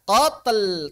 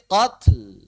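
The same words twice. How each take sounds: First: The consonant is released with an added voiced echo. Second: The consonant is released with only a puff of breath. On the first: The speaker calls it wrong. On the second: The speaker calls it right.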